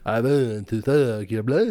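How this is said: It is said in a put-on Dracula voice.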